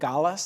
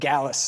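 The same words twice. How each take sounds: First: It is said with a Spanish-like sound. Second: It sounds like 'Alice' with a G in front. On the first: The speaker calls it wrong. "I'm going to say it wrong again. ... I keep saying it like it's like Spanish" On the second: The speaker calls it right. "Put a G on the front"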